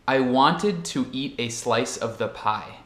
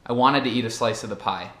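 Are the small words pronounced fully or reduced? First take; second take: fully; reduced. First: Each word is pronounced fully and separately. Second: Words run together with reduced schwa vowels. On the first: This is how a textbook presents it. "a forma certa de como pronunciar a frase que vocês vão aprender em um livro didático" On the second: This is how native speakers normally talk. "a maneira natural, normal, para mim, como falante nativo"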